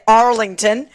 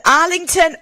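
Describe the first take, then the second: First: Arlington in an American accent; American-style Arlington. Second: Said in the usual way. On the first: Shown as a demonstration. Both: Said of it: "or as Americans say".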